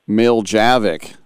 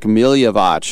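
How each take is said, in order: First: The surname is pronounced the Americanized way. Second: The surname is pronounced the Slavic way. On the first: The speaker calls it right. "We just do the Southern Alabama version of it" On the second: The speaker calls it wrong. "I'm going with the Slavic Milyevich"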